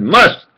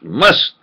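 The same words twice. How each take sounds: First: Must said higher with a rise; stress on must. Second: Said in the usual way. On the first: Shown as a demonstration. Insisting it's must, not could, with a rising must. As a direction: lean on the word must. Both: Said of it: "not could, should".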